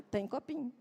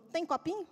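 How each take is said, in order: First: "Tem copinho." said low and soft, falling statement; quiet answer. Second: "Tem copinho?" with rising question tune on copinho; hopeful question. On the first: Mother calmly answers her toddler's question, soft falling statement. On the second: Toddler hopefully asks her mother for a cup, rising question. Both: Retold or imitated.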